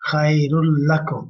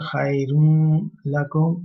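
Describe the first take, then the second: First: The n merges into the l with no trace. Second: The n sound is nasalized before lakum. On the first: The speaker calls it right. "without touch of noon" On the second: The speaker calls it wrong. "or nasalization"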